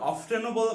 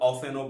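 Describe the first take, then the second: First: The t sound in the middle is pronounced. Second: The t sound in the middle is silent. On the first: "এর উচ্চারণ অফটেনও বলা যায়" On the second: "আবার অফেনও বলা যায়"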